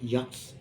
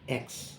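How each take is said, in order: First: The name begins with an added y sound. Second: The name begins directly with a vowel sound. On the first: The speaker calls it wrong. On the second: The speaker calls it right.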